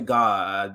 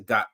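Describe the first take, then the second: First: The word ends with a clear D sound. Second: The word ends without a D sound. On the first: "I don't say God with a D" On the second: "I say God"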